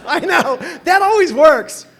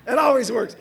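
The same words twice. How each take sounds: First: Loud, high ironic exclamation; mock your own bad idea; loud, high sarcastic aside. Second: Said in the usual way. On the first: Real, not acted. Self-mocking about internet girlfriend.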